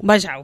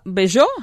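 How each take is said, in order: First: The name is said with a Catalan pronunciation. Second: The name is said with a French pronunciation. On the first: The speaker calls it right. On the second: The speaker calls it wrong.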